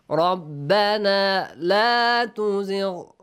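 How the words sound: It is read with heartfelt, pleading feeling.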